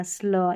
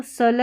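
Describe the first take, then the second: First: 'स्ल' with a half s straight into l; blended pronunciation. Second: 'सल' with a full vowel after s; unblended mispronunciation. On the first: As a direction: slide s into l, 'स्ल'. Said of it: "उसको आधा पढ़ना है". ('स्ल' में आधा स, पूरा ल बोलें) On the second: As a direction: keep s and l apart in 'सल'. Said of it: "इसको सल नहीं पढ़ना". ('सल' में पूरा स बोलें) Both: Shown as a demonstration.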